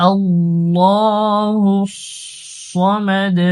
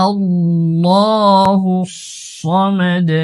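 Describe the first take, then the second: No difference in how they are said.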